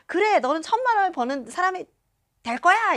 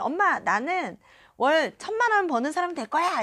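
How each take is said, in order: First: High, loud imitation of a cheering mother; enthusiastic agreement. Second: Higher-pitched, hopeful declaration; declaring to mother. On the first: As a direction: back her up with full-voiced encouragement. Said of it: "엄마가 맞장구를 쳐주셨거든요". (신나게 맞장구치는 엄마 흉내) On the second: Retold or imitated. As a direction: re-enact telling mom your big goal. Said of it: "엄마랑 저랑 막 차를 타고". (엄마에게 들뜬 듯 선언하는 말투)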